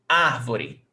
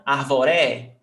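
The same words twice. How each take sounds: First: Árvore with the stress back on AR; AR-vo-re, the ending falling away; correct first-syllable stress. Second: Arvore wrongly stressed on the last syllable, RE; ar-vo-RÉ, with an open final e. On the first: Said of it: "this is the stressed syllable". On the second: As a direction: land hard on the RE of arvore. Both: Shown as a demonstration.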